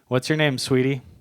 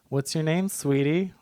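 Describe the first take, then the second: First: It is said in a plain, unfeminine voice. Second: It is said in a high, feminine voice. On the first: It sounds creepy and threatening. The speaker calls it wrong. "or else it's so creepy" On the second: It sounds much less threatening. The speaker calls it right. "in a really feminine voice"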